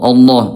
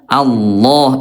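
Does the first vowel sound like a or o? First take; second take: o; a. First: The first vowel sounds like o. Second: The first vowel sounds like a. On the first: The speaker calls it wrong. "kayak bunyi o ketika uh, bertemu dengan lafaz Allah suka jadi ke o ya" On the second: The speaker calls it right. "bukan Allah Allah Allah tapi a ya"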